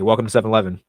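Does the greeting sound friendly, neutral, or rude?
neutral. The greeting sounds casual and only mildly polite. The speaker is acceptable but not especially polite. "it's not the most polite tone, but fair enough"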